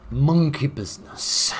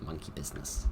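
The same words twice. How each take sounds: First: Loud, high, drawn-out proclamation; theatrical announcement. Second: Said in the usual way. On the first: Acted. Gamer announcing the monkey theme to viewers, theatrical and drawn-out. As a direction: announce it slowly with a big, hammy flourish.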